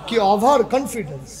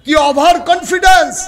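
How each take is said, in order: First: Said in the usual way. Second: Loud, high pulpit cry; emphatic exclamation. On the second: Real, not acted. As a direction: proclaim it to the whole crowd. Preacher repeats line with force.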